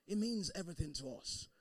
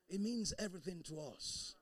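No difference in how they are said.

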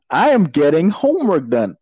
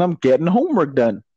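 First: AM stretched out with high pitch; emphatic insistence. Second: Said in the usual way. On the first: Shown as a demonstration. Insists after a laugh.

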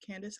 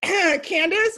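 First: Very soft, low retold answer; meek mumble. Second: High, loud retold answer after clearing the throat; louder repeat. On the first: Cornered coworker answering what her name is, meek mumble. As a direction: give the name back small and barely audible. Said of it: "Say it louder for the people in the back". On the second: Coworker made to repeat her name, louder repeat. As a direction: say the name up and out for all to hear. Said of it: "Say it louder for the people".

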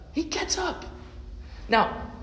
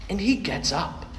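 First: Much higher, hushed amazement; amazed. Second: Said in the usual way. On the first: Acted. Preacher marveling the dead boy rises, amazed. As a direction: marvel at the miracle. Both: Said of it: "maybe I need to try again".

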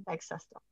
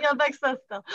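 First: Low, soft deadpan aside; quietly deadpan, dropped low; quiet correction. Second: Higher, firm mock insistence; pointedly correcting, pitched up; insistent correction. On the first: Retold or imitated. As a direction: slip the correction in under your breath. Corrects being called her mum. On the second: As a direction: put them straight, playfully emphatic. Insists on being the sister.

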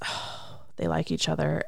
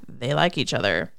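First: Soft, breath-led "Oh" then the realization; jealous thought. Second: Low-pitched imitation of his inner aside; jealous thought. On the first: Retold or imitated. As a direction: imitate a jealous woman's inner aside. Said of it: "she thinks". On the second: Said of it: "and he's thinking".

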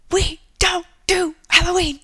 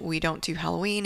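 First: High, loud imitation of a scolding mom; halting, high-pitched mock yell; yelled translation. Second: Said in the usual way. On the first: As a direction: shout it one chunk at a time. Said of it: "in her broken Japanese accent, which means".

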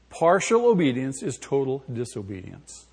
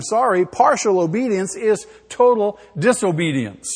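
First: Said in the usual way. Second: Total stressed loud, falling; loud stressed declaration. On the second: Shown as a demonstration. Preacher declaring the principle loudly, stressing total. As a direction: hit total hard.

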